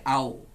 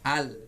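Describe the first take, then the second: First: The syllable ends with a w-like sound. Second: The syllable ends with a clear l sound. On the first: The speaker calls it wrong. "Kalau enggak terbaca jadi au" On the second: The speaker calls it right. "ucapkan dulu al dengan benar"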